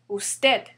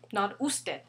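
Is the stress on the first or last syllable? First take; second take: last; first. First: The stress is on the last syllable. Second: The stress is on the first syllable. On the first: The speaker calls it right. "the stress falls on the last syllable. Usted" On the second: The speaker calls it wrong.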